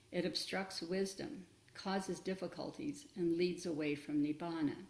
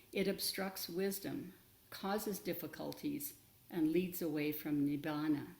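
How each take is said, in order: The two takes are said the same way.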